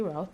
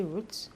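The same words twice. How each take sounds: First: "route" with an OW vowel, as in "shout"; ROUTE rhyming with "out". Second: "route" with a long OO vowel; ROUTE rhyming with "boot". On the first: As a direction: say "route" like "rout". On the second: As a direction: say "route" like "root". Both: Shown as a demonstration. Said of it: "route or route".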